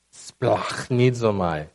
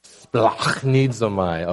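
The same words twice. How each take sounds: First: "Splachnizomai" spelled out slowly, syllable by syllable, with a throaty ch; teaching the class "Splachnizomai" slowly, harsh ch like about to spit; slow Greek word. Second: "Splachnizomai" repeated slowly with a throaty ch; repeating "Splachnizomai" slowly so the listeners can copy it; slow Greek word. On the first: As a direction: model "Splachnizomai" slowly, each syllable clear. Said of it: "You guys remember the word?". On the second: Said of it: "Maybe try saying it". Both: Shown as a demonstration.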